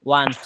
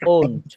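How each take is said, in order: First: The vowel sounds like 'ah'. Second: The vowel sounds like 'oh'. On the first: The speaker calls it wrong. "ওয়ান্ট না" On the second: The speaker calls it right. "হ্যাঁ ওন্ট হবে"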